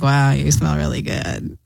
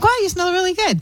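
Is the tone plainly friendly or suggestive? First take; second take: suggestive; friendly. First: It is said in a suggestive, flirty tone. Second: It is said in a plainly friendly tone.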